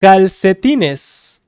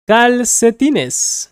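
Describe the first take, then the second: First: Calcetines said slowly and clearly; slow teaching repeat. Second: Calcetines said slowly, a little higher; slow teaching repeat. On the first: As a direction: spell out Calcetines syllable by syllable. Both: Shown as a demonstration.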